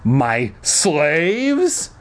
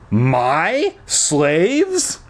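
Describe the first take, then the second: First: The stress is on "slaves". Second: The stress is on "my".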